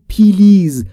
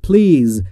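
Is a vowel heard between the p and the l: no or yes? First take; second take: yes; no. First: An ee-like vowel is added between p and l. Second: The p and l are joined with no vowel. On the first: The speaker calls it wrong. "نگفتم پیلیز" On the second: The speaker calls it right. "بین P و L صدایی وجود نداره"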